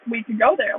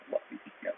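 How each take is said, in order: First: Said in the usual way. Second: Barely audible, voiceless aside to a friend; hushed whisper. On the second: Retold or imitated. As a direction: whisper it as a secret shared idea. Acts out a shared look.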